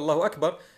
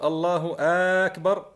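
First: The first vowel of akbar is kept short. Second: The first vowel of akbar is drawn out long. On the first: It is a statement of praise. The speaker calls it right. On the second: It turns the phrase into a question. The speaker calls it wrong.

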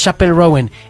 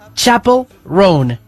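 First: The last name is said with two syllables. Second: The last name is said with one syllable. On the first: The speaker calls it wrong. "no es [name]" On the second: The speaker calls it right. "es Chapel Roan"

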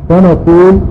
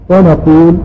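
No difference in how they are said.

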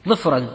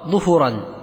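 First: First vowel i, no vowel after the f. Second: Both vowels are u. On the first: "وبكسر فسكون" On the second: "أو بضم"

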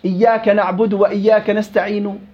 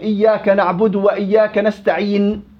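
First: A faint trace of the final vowel is heard. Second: The final consonant is stopped with no vowel. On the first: "الروم أن آتي ببعض الحركة" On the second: "بالسكون المحض"

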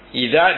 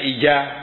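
First: The word begins with a soft 'dh' sound. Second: The word begins with a 'j' sound. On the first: The speaker calls it right. "Ida dibaca ija" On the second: The speaker calls it wrong. "dibaca ija"

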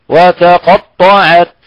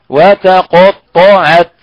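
Both takes have the same delivery.

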